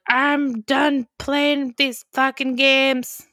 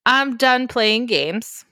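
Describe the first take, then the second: First: Slow, mock-menacing growl of a line; angry king. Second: Slow mock-menacing line, clean version; a milder hammed-up villain; angry king. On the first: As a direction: drag it out like a fed-up villain. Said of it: "he's yelling, and he's pissed". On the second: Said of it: "It's not really what he says".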